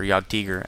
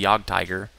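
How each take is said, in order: First: The word is pronounced with German sounds. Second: The word is pronounced with English sounds. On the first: The speaker calls it right. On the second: The speaker calls it wrong.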